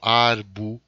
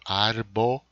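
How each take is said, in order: First: The final o is weakened or dropped. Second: The final o is pronounced clearly. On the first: The speaker calls it wrong. "Eu não falo arbo" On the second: The speaker calls it right. "Eu falo arbo"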